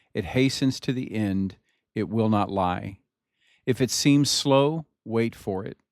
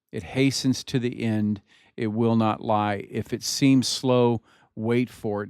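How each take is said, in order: No difference in how they are said.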